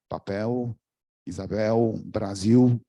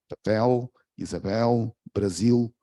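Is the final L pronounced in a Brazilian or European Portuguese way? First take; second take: Brazilian; European. First: The final L is pronounced the Brazilian way. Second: The final L is pronounced the European Portuguese way.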